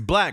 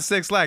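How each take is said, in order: First: The name is said as one word, black. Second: The name begins with the number six. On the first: The speaker calls it right. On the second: The speaker calls it wrong. "It's not 6 Lack"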